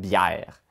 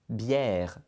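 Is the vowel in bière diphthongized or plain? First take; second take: diphthongized; plain. First: The vowel glides with an added a sound. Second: The vowel is a plain, single vowel. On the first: "Je mets un beau A à quelque part dans mon accent grave" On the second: "je ne dis pas bière"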